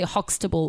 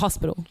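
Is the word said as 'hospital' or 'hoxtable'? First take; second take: hoxtable; hospital. First: The word is said as 'hoxtable'. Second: The word is said as 'hospital'. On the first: The speaker calls it wrong. "like you don't say Hoxtable" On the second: The speaker calls it right. "A hospital"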